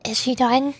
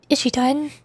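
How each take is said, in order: Both takes have the same delivery.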